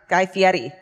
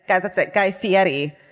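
First: The surname is pronounced in an Italian way. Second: The surname is pronounced in an Americanized way. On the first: This is the original pronunciation of the name. "The correct pronunciation is Ferry" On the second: This is how the name's owner says it. "but he says it's Fetty"

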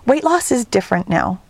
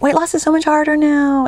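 First: It is said in her normal speaking voice. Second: It is said in a mocking put-on voice.

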